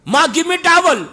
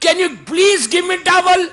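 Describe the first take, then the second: First: High, loud demand for a towel; bossy order. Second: High, slow, sweetly drawn-out please; polite request. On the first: Son bossing his mother for a towel, high demand. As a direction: order it, no please. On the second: Son asking his new wife politely for a towel, slow sweet plea. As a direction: ask nicely, stretching every word. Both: Retold or imitated.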